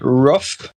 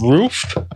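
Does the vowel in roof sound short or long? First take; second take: short; long. First: The vowel is short, like in 'ruff'. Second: The vowel is long, like in 'rue'. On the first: This is the regional Midwest or Canadian way. "I used to say roof" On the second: This is the usual way elsewhere. "instead of roof"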